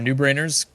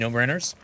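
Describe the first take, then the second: First: The first word sounds like 'new'. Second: The first word sounds like 'no'. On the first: "no brainers or new brainers" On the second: "no brainers or new brainers"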